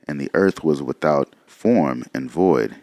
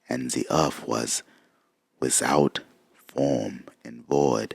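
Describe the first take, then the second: First: It is read in the speaker's ordinary accent. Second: It is read in a put-on German accent.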